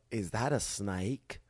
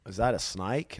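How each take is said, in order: First: Put-on slow, drawled Southern-Australian accent; lightly put-on Southern-Australian accent, slow. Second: Put-on a touch of Southern accent on the redo; lightly put-on Southern accent. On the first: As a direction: imitate people in a vague Southern-Australian accent. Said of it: "Why are they Australian?". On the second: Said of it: "that was just Southern".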